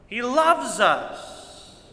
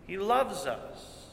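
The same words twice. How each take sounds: First: He loves us, drawn out slowly; slow, emphatic he loves us; slow tender stress. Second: Much softer, slow repeat of He loves us; quiet, tender echo of He loves us. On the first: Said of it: "preacher drawn out". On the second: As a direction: drop it to a near hush. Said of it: "repeated softer". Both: Real, not acted.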